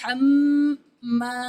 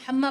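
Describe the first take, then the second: First: The nasal m and long vowel are drawn out. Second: The m and final vowel are clipped short. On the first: The speaker calls it right. "दोनों तरफ से इस तरह पढ़ना है" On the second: The speaker calls it wrong. "गुन्ना भी नहीं होता और अलिफ मद्दा भी नहीं पढ़ते"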